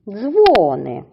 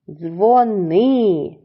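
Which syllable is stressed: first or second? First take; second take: first; second. First: The stress is on the first syllable. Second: The stress is on the second syllable. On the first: It means bells. "наголошуємо на перший склад" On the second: It is a request to phone someone. "наголос на другому складі"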